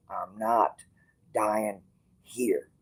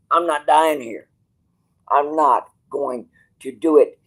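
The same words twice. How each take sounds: First: Said in the usual way. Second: Raised, defiant declaration; stubborn outburst; defiant louder. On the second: Real, not acted. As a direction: say it like you mean it, louder. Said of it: "Kiss my ass".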